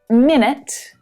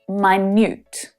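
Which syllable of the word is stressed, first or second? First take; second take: first; second. First: The stress is on the first syllable. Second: The stress is on the second syllable. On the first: "Syllable stress is also annoying" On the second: "Very, very small"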